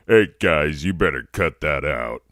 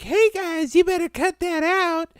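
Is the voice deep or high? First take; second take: deep; high. First: It is said in a deep voice. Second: It is said in a high voice.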